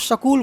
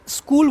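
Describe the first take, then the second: First: The opening sound is swapped for another. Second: The word begins with its standard sounds. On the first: "तो शकूल बोलते हैं" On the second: "अगर कोई स्कूल बोलना है"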